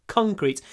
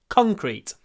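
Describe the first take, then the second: The two takes are said the same way.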